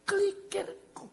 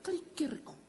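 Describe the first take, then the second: First: Kelikirku drawn out slowly, much higher; slow emphatic repeat. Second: Said in the usual way. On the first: Shown as a demonstration. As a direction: savour the word Kelikirku, stretched and high. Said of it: "repeated for emphasis". (Kelikirku diucapkan pelan dan tinggi, penuh penekanan) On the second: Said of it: "plain reading of the verse".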